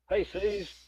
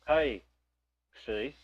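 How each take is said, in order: First: The two words run together without a pause. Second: There is a pause between the two words. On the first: The person addressed is a close friend. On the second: The person addressed is not a friend.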